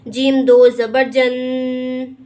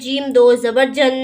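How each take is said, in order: First: The final nasal sound is held moderately long. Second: The final nasal sound is cut very short. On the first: The speaker calls it right. "ऐसा पढ़ना दुरुस्त होगा" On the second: The speaker calls it wrong. "यानी बहुत थोड़ा गुन्ना करेंगे तो ऐसा पढ़ना भी गलत होगा"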